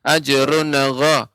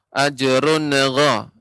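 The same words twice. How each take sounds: The two takes are said the same way.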